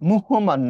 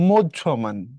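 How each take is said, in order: First: The middle consonant sounds like a plain h. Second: The middle consonant sounds like a doubled jh. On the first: The speaker calls it wrong. "এটা আহ মুহ্যমান না" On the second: The speaker calls it right. "হটা ঝড় মতো করে জফলা দিয়ে উচ্চারিত হবে"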